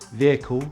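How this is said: The first vowel is a short I. "So British English"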